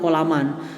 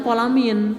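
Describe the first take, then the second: First: The word ends in the vowel a plus n. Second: The word ends in the vowel i plus n. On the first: The speaker calls it wrong. "tidak kolaman" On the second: The speaker calls it right. "Dibacanya kolamin"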